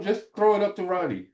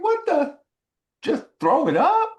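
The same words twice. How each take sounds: First: High, lightly voiced coach's instruction; quoting the coach. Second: High, loud, indignant question; retold incredulous outburst; upset disbelief. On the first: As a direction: pass on the coach's simple instruction, pitched up. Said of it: "'Cause Coach Fry said". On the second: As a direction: throw the instruction back in outrage, rising sharply. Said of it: "I was so upset".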